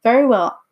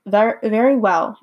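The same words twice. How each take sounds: First: Louder, higher Very well as Oz; lightly voiced wizard agreeing; first take. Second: Very well said slowly with a falling Very after a stumble; slow careful reread of very well; slower retake. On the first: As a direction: say Very well with a firm falling Very. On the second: Acted. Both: Reader restarts Oz's line.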